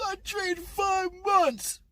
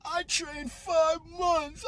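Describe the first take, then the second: First: Much higher, slow, wailing mock cry; mock wailing boxer. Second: Higher, slow whiny mock of the boxer's words; mocking the crying boxer. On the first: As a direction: wail it like a crybaby, stretched out. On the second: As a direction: parody the sobbing boxer, drawn out. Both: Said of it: "the allusion to his crying is".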